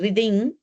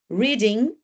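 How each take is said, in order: First: The stress falls on an unusual syllable. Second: The stress falls on the usual syllable. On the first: The speaker calls it wrong. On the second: The speaker calls it right.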